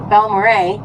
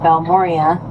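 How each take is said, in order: First: The name ends with an 'al' sound. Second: The name ends with an 'ee-a' sound. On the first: The speaker calls it right. "I guess is how you say it" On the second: The speaker calls it wrong. "not Balmoria"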